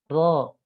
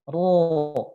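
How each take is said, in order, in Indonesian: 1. Suaranya terasa ringan dan tipis di dalam mulut. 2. Suaranya terasa tebal dan penuh di dalam mulut. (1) "jangan ringan" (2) "itu jadi tebal suaranya"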